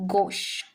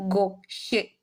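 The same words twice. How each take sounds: First: "gauche" as one syllable, gohsh; the correct "gauche", final e left silent. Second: "gauche" said go-shé in two slow syllables; as if "gauche" had an accent, go-shé; sounded final é. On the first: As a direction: close "gauche" on sh with no vowel. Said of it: "But no". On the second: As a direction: add a clear é to the end of "gauche". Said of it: "we had an accent at the end". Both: Shown as a demonstration.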